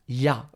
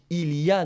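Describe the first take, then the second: First: The 'il' is dropped, leaving a short 'y a'. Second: All three words are fully pronounced. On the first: The speaker calls it right. "on va dire ... on supprime le mot" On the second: The speaker calls it wrong. "est-ce qu'on dit il y a? Non"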